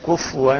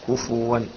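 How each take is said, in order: First: The f sound has no vowel after it. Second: The f sound is followed by a u vowel. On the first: The speaker calls it wrong. "بتسكين الفاء" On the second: The speaker calls it right. "والصواب ضمها"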